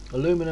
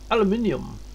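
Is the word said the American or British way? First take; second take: American; British. First: It is said the American way, aluminum. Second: It is said the British way, aluminium. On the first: "Aluminum instead of aluminium" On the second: "That's what we say"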